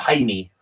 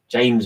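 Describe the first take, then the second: First: The name begins with an H-like sound. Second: The name begins with an English J sound. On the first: The speaker calls it right. "But it's uh, Jaime, uh, like Jesus" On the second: The speaker calls it wrong. "my English pronunciation? I always think it's James"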